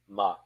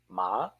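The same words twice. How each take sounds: First: The pitch is heavy and drops abruptly. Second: The pitch curls like a question mark. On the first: It means to plate. "heavy, a stone too large for your hands, dropped in water" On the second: It means tomb or grave. "curl it like a question mark"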